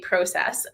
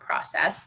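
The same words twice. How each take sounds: First: It is said with a Canadian pronunciation. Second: It is said with a non-Canadian pronunciation. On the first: The speaker calls it right. "making it speak Canadian" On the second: The speaker calls it wrong. "not process"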